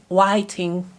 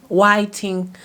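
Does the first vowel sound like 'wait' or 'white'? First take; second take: white; white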